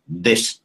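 It is said with a heavy Indian accent. "I am from India"

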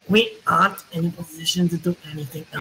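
The voice sounds like a German accent. "You're just German now"

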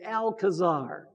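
The name is said with an English pronunciation. This is the usual way people say it. The speaker calls it wrong. "usually we say Alcazar"

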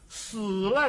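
It is said with Mandarin pronunciation. "说喜儿娘你死了"

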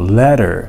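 The middle consonant sounds like a D. This is how Americans say it today. "D 発音するんですよ"

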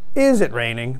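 The pitch changes at the start. The speaker calls it wrong. "It's not like, is it raining? Like, it's like some kind of intonation at the beginning"

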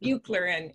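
The name is pronounced the English way. "Buechler en inglés"

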